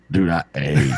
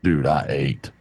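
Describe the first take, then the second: First: Half-shouted, leaning hard on ate; shouted emphasis. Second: Said in the usual way. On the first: Real, not acted. Man shouting about the huge meal, mock-shouted emphasis. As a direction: belt it out to stress how much he ate.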